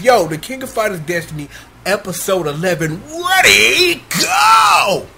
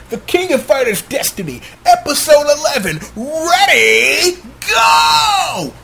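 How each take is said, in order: First: Fast hype intro, shouted ready go; second try at the fight call; Gundam announcer voice. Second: Hyped fight announcer, rising to a shouted go; Gundam announcer voice. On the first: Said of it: "I'm trying". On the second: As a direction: call the match start like a tournament announcer. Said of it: "I was trying to give y'all my best Gundam announcer voice". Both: Shown as a demonstration.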